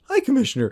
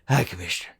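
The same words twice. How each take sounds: First: The voice goes up very high and cracks. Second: The voice stays lower on one note.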